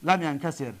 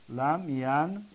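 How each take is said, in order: First: Said in the usual way. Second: لم ینکسر split slowly as lam, yan, ka, sir; syllable by syllable. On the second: Shown as a demonstration. Teacher breaking down the negated past, syllable by syllable. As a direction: sound out لم ینکسر with pauses between syllables.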